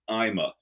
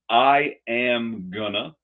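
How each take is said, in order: First: Everything is squeezed into two short syllables. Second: Going to is reduced to gonna.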